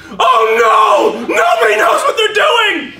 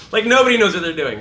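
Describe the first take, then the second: First: High, loud panicked yell; panicked shout. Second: Said in the usual way. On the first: Acted. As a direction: scream it like the world is ending. Teacher acts panicked outburst.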